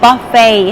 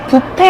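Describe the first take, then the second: First: It is said with English sounds, like 'buh-fay'. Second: It is said as the Korean loanword 'bwipe'. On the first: The speaker calls it right. "buffet 하셔야지만 알아듣습니다" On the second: The speaker calls it wrong. "뷔페 아니에요"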